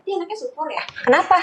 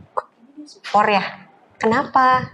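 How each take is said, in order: First: High, soft "supor ya" with "Kenapa" rising; high-pitched query, rising on "Kenapa"; contrasting questioning tune. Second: "supor ya" fairly level, "Kenapa" lifted a little; measured question, pause before "Kenapa"; milder questioning tune. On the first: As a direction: lift the whole question high, ending up on "Kenapa". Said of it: "Gitu kan beda". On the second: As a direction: ask "Kenapa" evenly, only slightly raised. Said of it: "Padahal katanya sama, tapi intonasinya". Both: Shown as a demonstration.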